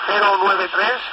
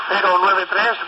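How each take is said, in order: Both takes have the same delivery.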